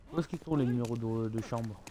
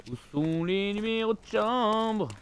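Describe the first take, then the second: First: Said in the usual way. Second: Slow, drawn-out, a bit higher "Où sont les numéros de chambre?"; mock puzzled drawl; slow drawn-out question. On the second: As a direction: stretch every word of "chambre" slowly. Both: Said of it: "repeats the question".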